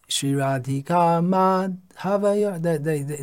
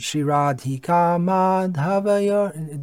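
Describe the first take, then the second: First: There is a gap between ma and dha. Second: Ma and dha run together without a gap. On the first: The speaker calls it wrong. "I'm extending the gap" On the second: The speaker calls it right. "it has to be pronounced as one word"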